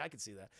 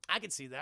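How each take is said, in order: First: Softer, lower murmur to himself; quiet repeat. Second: Said in the usual way. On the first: Shown as a demonstration. Streamer softly repeating to himself, quiet. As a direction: drop it to a soft aside.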